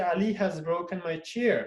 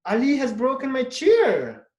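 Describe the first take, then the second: First: Said in the usual way. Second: "Ali has broken my chair" said higher and louder, hitting "chair"; exclamative. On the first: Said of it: "Or you can say". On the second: Shown as a demonstration. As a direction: exclaim it in dismay. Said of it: "Just you change your voice, intonation".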